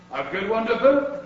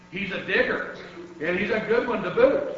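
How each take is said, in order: First: Raised, louder echo with a rising end; crew agreeing. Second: Mild storybook yell, rising at the end; yelling to crew. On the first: Pirate crew echoing their captain, loud agreement. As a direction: chime in heartily as the whole crew. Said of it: "the others all agreed". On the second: Head pirate to his crew, approving mild yell. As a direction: call back over your shoulder, building. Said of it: "he yelled back to his crew". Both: A narrator's reading.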